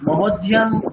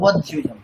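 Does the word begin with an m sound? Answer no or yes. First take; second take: yes; no. First: The word begins with a linked m sound. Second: The word begins with a vowel, no m. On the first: The word is joined to the previous word. The speaker calls it right. "মবধ্যিয়াম এই জিনিসটা আমাদের conscious মাইন্ডে নেই" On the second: The word is said apart from the previous word. The speaker calls it wrong. "আমাদের conscious মাইন্ডে ওঠাই আছে অবধ্যিয়ম"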